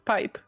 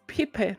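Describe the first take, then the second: First: It is said as one syllable, like English pipe. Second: It is said as two syllables, Spanish style. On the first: It means a tube. The speaker calls it wrong. "not pipe. He is not a pipe, he is not a tube" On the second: It is the person's name. The speaker calls it right. "it is pipe"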